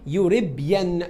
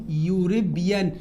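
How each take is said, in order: First: Said in the usual way. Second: "يوريبيان" slowly, stretched from the opening yoo; careful repetition. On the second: Shown as a demonstration. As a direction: model "يوريبيان" slowly for the class. Teacher repeats the word slowly.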